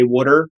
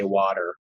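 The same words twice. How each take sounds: First: It is said with the local Delaware pronunciation. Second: It is said without the local Delaware pronunciation. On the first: This is how most local people say it. "you'll find most people here say water" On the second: This is the way the speaker chooses to say it instead. "I'm going to say water"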